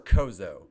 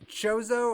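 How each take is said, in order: First: The word begins with a k sound. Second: The word begins with a ch sound. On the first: "they're always saying Kozo" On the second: "I say Chozo"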